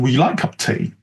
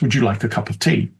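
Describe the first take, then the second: First: Words are squeezed together and heavily reduced. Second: Words are linked with weak schwa vowels. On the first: "And perhaps if they're in the U K, even" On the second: "With some of the features of fast speech, uh, linking the uh sound schwa"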